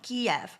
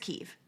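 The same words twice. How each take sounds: First: The name has a distinct turn in the middle. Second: The name sounds close to the word key. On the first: This is the long-standing Western pronunciation. "a very specific turning in the middle" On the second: This is the newer pronunciation heard now. "what I hear is key"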